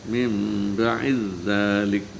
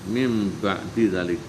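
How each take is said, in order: First: The d sound merges into the next sound. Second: The d sound is pronounced separately.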